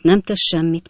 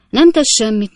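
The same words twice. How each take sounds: First: Said in the usual way. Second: Louder, pressing first "nem tesz semmit"; "nem tesz semmit" said loudly with stress on "nem"; emphatic reassurance. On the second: Acted. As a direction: brush it off firmly, punching "nem". Host brushing off broken glass.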